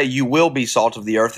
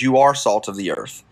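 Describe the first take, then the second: First: Preacher stressing "will" to show the wrong reading. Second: "are" hit hard with a falling tune; stress on are. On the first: Preacher to listeners, stressing "will" in the quote. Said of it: "It doesn't say". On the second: Preacher correcting the quote, pressing on "are". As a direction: land firmly on "are" to correct the misquote. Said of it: "It says". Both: Shown as a demonstration.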